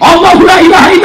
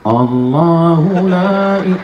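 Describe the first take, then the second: First: It is recited loudly and forcefully. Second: It is recited softly and slowly.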